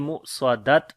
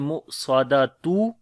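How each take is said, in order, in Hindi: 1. शब्द एक हल्की कटी हुई 't' आवाज़ के साथ खत्म होता है। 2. शब्द एक पूरे 'atun' अंत के साथ खत्म होता है। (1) "और ना ही पढ़ेंगे मु स्वादत, दोनों गलत हैं" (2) "ऐसे नहीं पढ़ेंगे"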